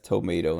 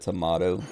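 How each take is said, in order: First: Tomato is said with an American-style vowel. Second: Tomato is said with an Australian-style vowel. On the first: The speaker is losing her native accent. "losing her Aussie accent" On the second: This is the speaker's native accent. "instead of tomato"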